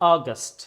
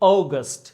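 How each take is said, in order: First: The first vowel sounds like ah. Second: The first vowel sounds like oh. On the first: "American অ্যাকসেন্টে" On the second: "British অ্যাকসেন্টে"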